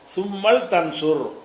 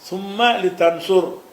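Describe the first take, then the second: First: The l is closed with no vowel after it. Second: The l is followed by a short vowel. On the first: The speaker calls it right. "அப்படி ஆக்கிருந்தேன்" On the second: The speaker calls it wrong. "என்று சொல்லாம"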